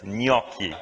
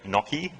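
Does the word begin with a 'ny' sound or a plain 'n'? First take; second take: ny sound; plain n. First: The word begins with a nasal ny sound. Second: The word begins with a plain n sound. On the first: The speaker calls it right. "the proper way to say it ... ny, ny, ny, and then ki ... It comes from the nose" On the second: The speaker calls it wrong. "most people do say gnocchi"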